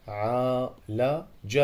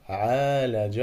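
First: عالج read slowly, the ا in عا held long; long alif drawn out. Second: Said in the usual way. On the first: Shown as a demonstration. Learner sounding out a word in a lesson, slow stretched alif. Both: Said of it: "مد بالألف".

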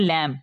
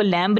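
First: "लैम" ending on m, no b; silent b. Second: "लैम्ब" with the final b sounded; wrong pronunciation. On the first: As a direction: drop the b at the end of "लैम". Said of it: "इसको पढ़ना है". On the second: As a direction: pronounce the silent b in "लैम्ब". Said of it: "नहीं पढ़ना". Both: Shown as a demonstration.

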